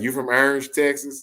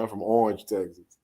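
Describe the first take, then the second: First: Orange said with an open ah, like Arange; mock outsider pronunciation. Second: Orange said with a round aw, like Or-ange; local pronunciation. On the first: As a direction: question Orange as ARR-ange, mildly mocking. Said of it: "they be tripping on that". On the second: Retold or imitated. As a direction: answer with Orange as AW-range, calm. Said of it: "He's like".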